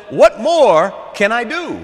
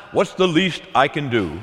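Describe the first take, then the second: First: Loud, high, drawn-out eagerness; eager, loving offer. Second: Grudging minimum effort. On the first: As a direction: ask it slowly and loudly, eager to give more. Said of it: "Love says". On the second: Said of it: "that's not the language of love". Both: Acted.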